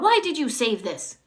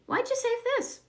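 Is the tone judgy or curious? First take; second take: judgy; curious. First: It sounds judgy and accusing. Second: It sounds curious and loving.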